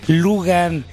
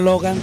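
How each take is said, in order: First: The first vowel sounds like 'oo'. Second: The first vowel sounds like 'oh'. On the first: The speaker calls it wrong. "dice Lugan y no Logan" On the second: The speaker calls it right. "tal cual se escribe, así se pronuncia"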